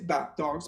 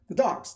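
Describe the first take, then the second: First: The word 'the' is said apart from 'dogs'. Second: The word 'the' runs straight into 'dogs'. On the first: The speaker calls it wrong. "You don't say" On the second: The speaker calls it right. "it connects to the dogs"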